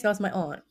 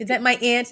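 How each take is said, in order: First: "aunt" with an open AH, like "ahnt"; broad "aunt". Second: "aunt" said like "ant", questioning; flat-A "aunt". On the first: Host insisting on her pronunciation, broad AH. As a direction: correct it firmly to "aunt" rhyming with "font". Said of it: "I say aunt". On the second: Host mocking the other pronunciation, "aunt" like "ant". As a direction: ask it with "aunt" as in "cat". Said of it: "I don't say aunt". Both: Shown as a demonstration.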